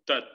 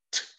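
First: The t is released without a puff of air. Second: The t is released with a puff of air. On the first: The speaker calls it wrong. "No suena ta" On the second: The speaker calls it right. "Como que usted expulsa el aire"

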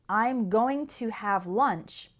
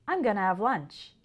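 First: 'Going to' is said in full. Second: 'Going to' is reduced to 'gonna'. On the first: "The sentence" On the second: "sounds like"

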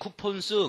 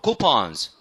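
First: The o vowel stays closed without opening. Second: The o vowel opens wide, almost to ah. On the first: The speaker calls it wrong. "coupons 그러면 안 돼요" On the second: The speaker calls it right. "거의 아 발음까지도 나올 정도로"

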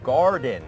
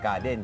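First: It is said with a native English accent. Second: It is said with a Thai accent. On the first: This is how native English speakers say it. "ฝรั่งก็จะออกเสียงว่า" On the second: This is how many Thai speakers say it. "คนไทยหลายคนก็ออกเสียงว่า"

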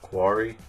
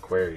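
First: The word sounds like 'quarry'. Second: The word sounds like 'query'. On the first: This is how other people say the name. The speaker calls it wrong. "people say it like quarry" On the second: This is how the player himself says the name. The speaker calls it right. "That's how I say it"

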